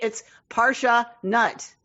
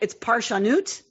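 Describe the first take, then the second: First: It is said as English 'parsha nut'. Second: It is said as one Hebrew word. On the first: It jokes that we are nuts for Torah. "if you're pronouncing it in an English way" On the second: It means the work of interpreting Torah. "if you just look at it"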